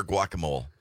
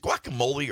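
First: Guacamole said GWAH-kuh-mohl; guacamole ending in "mole". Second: Guacamole said gwah-kuh-MOH-lee; guacamole ending in "lee". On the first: Host offering the other way, guacamole without the final ee. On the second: Host asking which way to say it, guacamole ending in "lee". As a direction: say guacamole with a final ee sound. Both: Shown as a demonstration. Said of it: "Is it guacamole or guacamole?".

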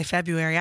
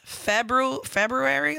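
First: "February" said as Feb-yoo-ary, first R dropped; R skipped. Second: "February" slowly sounded as Feb-roo-ary, pitched up. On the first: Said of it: "I skip that R". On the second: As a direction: carefully put both Rs in "February". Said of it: "like what you're saying". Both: Shown as a demonstration.

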